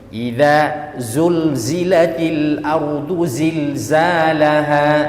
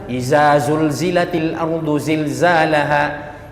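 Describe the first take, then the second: First: The first word has dh, then z sounds. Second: Every sound, including the first, is a z. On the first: The speaker calls it right. "Kalau idza keluar lidah sedikit" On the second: The speaker calls it wrong. "Jangan dihantam satu"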